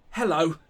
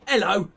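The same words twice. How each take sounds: First: "hello." with a clear h sound; standard way. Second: "hello" with the h dropped, said as "ello"; child's way. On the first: Reading the boy's letter aloud, "hello." with a full h. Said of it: "and not". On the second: Reading the boy's letter aloud, "hello" without the h. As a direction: drop the h in "hello", the way the boy insists. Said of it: "He also insists it will be". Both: Shown as a demonstration.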